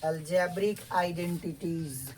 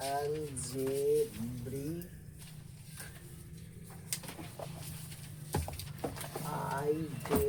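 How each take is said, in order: First: Said in the usual way. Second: Syllable by syllable, long drawn out; very slow, broken-up dictation. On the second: Shown as a demonstration. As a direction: stretch algebraic and identities into slow separate syllables. Teacher dictates term piece by piece.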